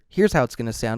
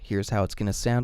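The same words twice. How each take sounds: First: Both bass and high frequencies are trimmed back. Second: Close-up bass is reduced, highs left intact. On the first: "if you engage that low cut and high cut filter" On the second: "if you engage that low cut filter"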